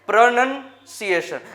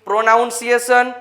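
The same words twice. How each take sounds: First: The second syllable sounds like 'nun'. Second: The second syllable sounds like 'noun'. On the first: The speaker calls it right. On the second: The speaker calls it wrong.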